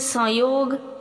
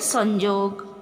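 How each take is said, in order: First: The middle consonant is a y sound. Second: The middle consonant is a j sound. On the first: This is how Hindi speakers say it. "Hindi में उच्चारण है संयोग" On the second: This is how Odia speakers say it. "Odia में उच्चारण है संजोग"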